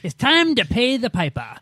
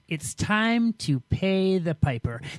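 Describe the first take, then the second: First: It is said in a Boston accent. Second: It is said in the speaker's ordinary accent.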